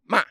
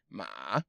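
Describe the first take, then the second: First: The pitch falls sharply. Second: The pitch dips down then rises. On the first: "fourth tone is falling, like you're cursing at somebody" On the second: "You go down and then up"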